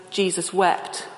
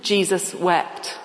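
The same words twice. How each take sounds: First: Said in the usual way. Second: Jesus wept said slowly, word by word; slow, deliberate Jesus wept; slow recitation. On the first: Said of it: "those famous words". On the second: Shown as a demonstration. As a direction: recite it slowly like a memory verse. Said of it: "a memory verse".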